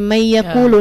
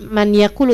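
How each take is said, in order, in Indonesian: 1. Bunyi n menyatu dengan bunyi y setelahnya. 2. Bunyi n diucapkan dengan jelas sebelum y. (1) "tapi may yaqulu" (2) "bacanya bukan man yaqulu"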